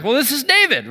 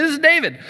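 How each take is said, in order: First: Excited. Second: "This is David." pitched much higher, eager; answering like he just won something; mock-excited self introduction. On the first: Retold or imitated. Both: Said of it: "so I got excited".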